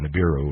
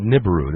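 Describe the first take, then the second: First: Nibiru said nuh-BEER-oo; alternate pronunciation. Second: Nibiru said NIB-uh-roo; alternate pronunciation. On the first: Host offering another way to say it, Nibiru as nuh-BEER-oo. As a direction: stress the middle syllable of Nibiru, nuh-BEER-oo. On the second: Host unsure of the planet's name, Nibiru as NIB-uh-roo. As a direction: stress the first syllable of Nibiru, NIB-uh-roo. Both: Shown as a demonstration. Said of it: "or however you pronounce it".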